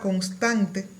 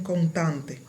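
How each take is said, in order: First: The s before the t is pronounced. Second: The s before the t is dropped. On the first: "en la palabra constante" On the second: "desaparición de la S"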